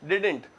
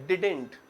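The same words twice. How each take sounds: No difference in how they are said.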